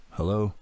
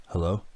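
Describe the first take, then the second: First: Mildly annoyed, rising query. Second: Said in the usual way. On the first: A narrator's reading. Father answers a silent phone a second time, mildly annoyed. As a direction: ask it a touch impatiently, pitched slightly up. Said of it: "he said, sounding annoyed". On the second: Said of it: "he said".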